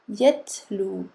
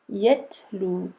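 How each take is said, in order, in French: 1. Le t se prononce avec une bouffée d'air. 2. Le t se prononce avec une bouffée d'air.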